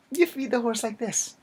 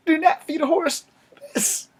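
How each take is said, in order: First: Higher, stress on "You" and "like this"; instructive correction. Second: Much higher and louder, stressing NOT; loud high-pitched "Do not feed a horse this"; emphatic warning. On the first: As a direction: show the right way, stressing "You feed the horse like this". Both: Shown as a demonstration.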